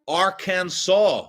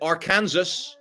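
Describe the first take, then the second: First: The ending sounds like the word saw. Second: The ending sounds like the word Kansas. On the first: It is said the way locals say it. "We're going to pronounce it Arkansas. There's no W in there" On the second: It is read the way it is spelled. "I love how Arkansas writes it"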